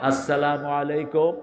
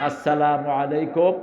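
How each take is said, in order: Both takes have the same delivery.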